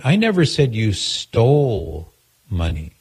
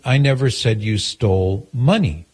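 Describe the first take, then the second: First: The stress is on the word stole. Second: The stress is on the word money.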